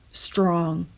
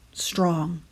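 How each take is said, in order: Both takes have the same delivery.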